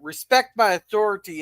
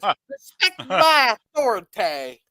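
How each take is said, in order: First: It is said in a plain, stern natural voice. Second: It is said in a cartoonish put-on character voice. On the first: "He's he's saying respect my authority" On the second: "instead of Cartman's"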